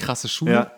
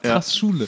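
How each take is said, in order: First: An extra vowel follows krass before Schule. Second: Krass runs straight into Schule without a vowel. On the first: The speaker calls it wrong. "Nicht krasse Schule" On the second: The speaker calls it right. "Es heißt Krassschule"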